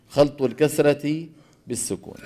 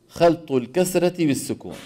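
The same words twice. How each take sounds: Both takes have the same delivery.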